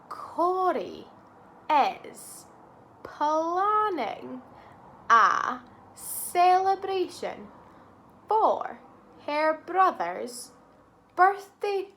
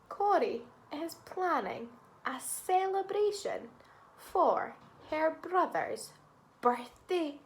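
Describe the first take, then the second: First: It is said slowly. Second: It is said at normal speed.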